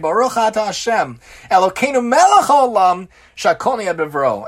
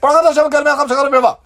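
First: It is said at a normal, slower pace. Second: It is mumbled quickly, words run together.

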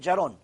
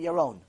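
First: The name begins with a J sound. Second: The name begins with a Y sound. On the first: The speaker calls it wrong. "They say Jaron. That's how they say it" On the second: The speaker calls it right. "it's very hard for them to say Yaron"

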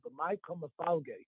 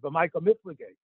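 First: The verb is pronounced mafalge. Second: The verb is pronounced miflige. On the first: The speaker calls it right. "The correct way to say it" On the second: The speaker calls it wrong. "the yeshiva way of saying it"

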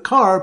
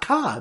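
First: It is said with the final r sound. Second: It is said Boston-style, dropping the r.

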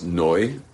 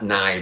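First: The vowel sounds like 'oy'. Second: The vowel sounds like 'eye'. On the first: The speaker calls it right. "It's a komitz under the Nun, so it's Noi" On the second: The speaker calls it wrong. "It's not Nai"

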